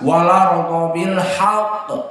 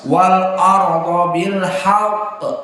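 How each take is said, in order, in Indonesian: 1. Huruf 'l' langsung bertemu dengan vokal, tanpa hamzah. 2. Hamzah tetap dibaca sebelum vokal setelah 'l'. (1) "tidak dibaca hamzah... harokat hamzah dipindahkan kepada lam" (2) "qiraah Hafs alif lam bertemu dengan hamzah"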